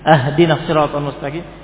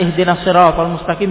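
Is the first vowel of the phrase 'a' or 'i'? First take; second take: a; i. First: The first word begins with an 'a' vowel. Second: The first word begins with an 'i' vowel. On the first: Give us the straight path as a gift. The speaker calls it wrong. "Adapun ahdina artinya hadiahilah kami" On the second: Guide us to the straight path. The speaker calls it right. "Ihdina artinya berilah kami petunjuk"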